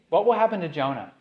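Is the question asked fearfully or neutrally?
neutrally. The question is asked in a plain, neutral tone.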